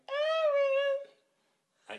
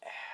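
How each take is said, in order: First: The name is said high and loud. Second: The name is said low and sensual.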